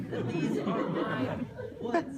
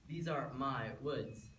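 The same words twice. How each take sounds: First: Loud, high "these are my woods"; loud insistence. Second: Slow, measured "These are my woods"; firm claim. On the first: Wolf insists to the courtroom on his territory, loud and emphatic. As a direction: belt out "these are my woods" at a raised pitch. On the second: Wolf tells the courtroom whose woods these are, firm and slow. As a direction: state "These are my woods" slowly and firmly. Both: Acted.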